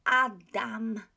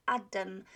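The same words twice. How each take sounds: First: "Adam" with two full open A sounds, louder; Polish pronunciation. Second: "Adam" with the second A reduced to "um"; English-style mispronunciation. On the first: Teacher correcting the English version, full Polish vowels. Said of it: "So it's". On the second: Teacher showing learners what to avoid, reduced vowel. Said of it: "It's not Adam". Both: Shown as a demonstration.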